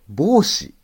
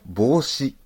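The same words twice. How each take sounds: First: The pitch falls after the first mora. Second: The pitch stays flat with no fall. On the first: The speaker calls it wrong. "私今までは帽子だと思ってたんです。" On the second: The speaker calls it right. "あれも帽子が発音正しいんですよね。"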